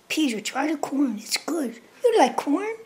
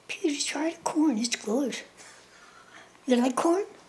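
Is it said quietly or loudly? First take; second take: loudly; quietly. First: It is said louder. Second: It is said more quietly.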